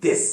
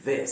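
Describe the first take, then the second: First: This said with a hard Urdu د; this with a hard dental د; wrong this. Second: This with the tongue between the teeth; this with a voiced th like ذ; correct voiced th. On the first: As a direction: show the wrong this. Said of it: "is not". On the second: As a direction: show the right this. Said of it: "would be". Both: Shown as a demonstration.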